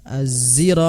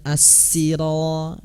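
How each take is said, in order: First: The first consonant sounds between z and s. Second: The first consonant is a heavy emphatic s. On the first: "antara zain dan uh, sin" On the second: "dengan huruf shad"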